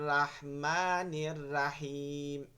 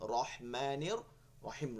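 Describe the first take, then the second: First: The r is followed by a clear open a. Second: The r is followed by a rounded o-like vowel. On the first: The speaker calls it wrong. "এটা হবে না" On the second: The speaker calls it right. "র পড়তে হবে, রেফ র পড়তে হবে"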